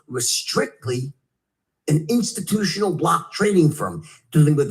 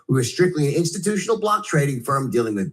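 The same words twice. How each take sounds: First: A lowered voice makes it sound impressive. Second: An ordinary voice makes it sound unremarkable. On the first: It is a really great thing. The speaker calls it right. "you also lower your voice. And, and by using tonality, you now make this sound like it's a really great thing" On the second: It is nothing special. The speaker calls it wrong. "If you say it that way, no one's going to care"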